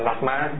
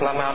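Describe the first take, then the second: First: The first syllable has a heavy, low, clipped tone. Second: The first syllable has a plain level tone. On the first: This reading reflects a regional habit of adding the heavy tone. The speaker calls it wrong. "người khác không không cần bỏ vô nặng" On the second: This is the ordinary reading of the word. The speaker calls it right. "Mình đọc Lama được không?"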